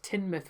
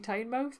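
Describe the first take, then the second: First: The first syllable does not sound like Tyne. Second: The first syllable sounds like the river Tyne. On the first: This is how some other people say the name. The speaker calls it wrong. "I do sometimes hear people pronounce as Teignmouth" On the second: The name means the mouth of the river. The speaker calls it right. "if it's the mouth of the Tyne, should it not be Tynemouth?"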